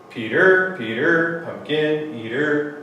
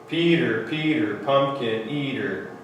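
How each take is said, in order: First: The stress falls on each word's second syllable. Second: The stress falls on each word's first syllable. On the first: The speaker calls it wrong. "read it with the opposite rhythm ... Nope, I don't like that" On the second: The speaker calls it right. "Sounds good"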